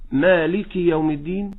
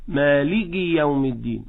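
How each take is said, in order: First: مالك with a crisp breathed k, rising; breathed kaf. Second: مالك said malig with a g-like kaf; voiced kaf mistake. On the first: Teacher gives the correct Fatiha reading. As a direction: let air out on the kaf of مالك. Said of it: "ولكن حينما أقول". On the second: Teacher shows the Fatiha mistake. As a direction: swallow the breath on the kaf of مالك. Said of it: "لا، الهمس في كل حال". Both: Shown as a demonstration.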